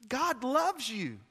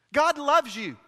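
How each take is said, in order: First: Hushed slow reassurance; tender, slow. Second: Loud and high, hammering it home; full-force preacher's cry; preaching shout. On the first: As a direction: say it gently, like a promise. Preacher repeats the line softly. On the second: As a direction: shout it to the back row. Preacher repeats the line, now shouting. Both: Real, not acted.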